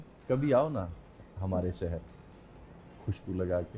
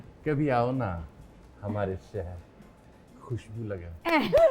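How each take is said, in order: First: It is said in his own normal voice. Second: It is said imitating a khwaja sara's voice.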